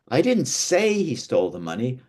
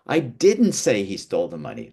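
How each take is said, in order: First: "say" stretched and emphasised; stress on SAY. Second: "didn't" punched as a firm denial; stress on DIDN'T. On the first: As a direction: lean on "say", implying another means. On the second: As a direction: hit "didn't", let the rest fall. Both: Shown as a demonstration. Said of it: "changes the meaning".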